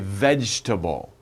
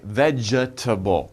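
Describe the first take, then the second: First: It is said with three syllables, dropping the E. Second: It is said with four syllables, sounding the E. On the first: The speaker calls it right. "we say vegetable" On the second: The speaker calls it wrong. "it looks like vegetable, but no"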